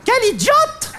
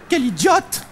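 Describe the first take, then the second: First: Mock cue delivery. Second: Said in the usual way. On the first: Shown as a demonstration. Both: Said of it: "quand je dis quel idiote, il y a un noir".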